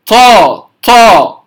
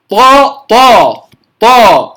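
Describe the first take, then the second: First: "طا" with a puff of air after the t; wrong "طا", a heavy t released with aspiration; wrongly aspirated. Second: "طا" with a firm unaspirated emphatic t; correct pronunciation. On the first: (نطق "طا" خطأً بهمس بعد الطاء) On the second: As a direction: say "طا" strong and heavy, with no puff of air. (نطق "طا" مفخمة شديدة بلا همس) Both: Shown as a demonstration. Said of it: "لا أهمس الطاء".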